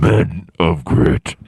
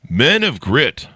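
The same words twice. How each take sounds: First: It is said in a raspy voice. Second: It is said in a normal voice.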